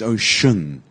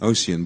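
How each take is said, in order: First: The middle consonant is a 'sh' sound. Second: The middle consonant is not a 'sh' sound. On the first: The speaker calls it right. "it's ocean" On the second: The speaker calls it wrong. "Many people say ocean"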